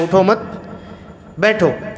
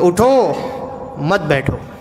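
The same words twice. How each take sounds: First: The pause comes after the second word, मत. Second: The pause comes after the first word, उठो.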